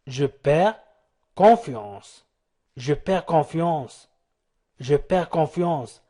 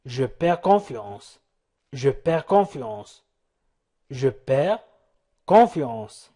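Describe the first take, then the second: No difference in how they are said.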